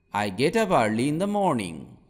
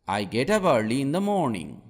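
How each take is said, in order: Both takes have the same delivery.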